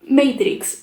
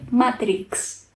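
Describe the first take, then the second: First: It is pronounced with an English accent. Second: It is pronounced with a Spanish accent. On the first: "por intentar pronunciar Matrix" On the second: "en vez de Matrix"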